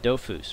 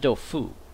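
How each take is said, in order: First: The word ends with an audible S sound. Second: The word ends without any S sound. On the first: "I am saying that correctly" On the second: "I always thought it was Dofu, because it's French"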